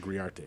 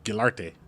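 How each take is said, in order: First: The name is said without an L sound. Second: The name is said with an L sound. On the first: The speaker calls it right. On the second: The speaker calls it wrong. "I used to say"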